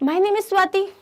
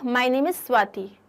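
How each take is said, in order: First: It is said with a gasp, sounding shocked. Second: It is said as a plain statement.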